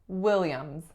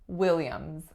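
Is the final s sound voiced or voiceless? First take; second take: voiced; voiced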